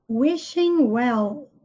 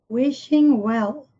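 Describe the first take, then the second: No difference in how they are said.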